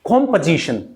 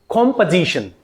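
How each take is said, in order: No difference in how they are said.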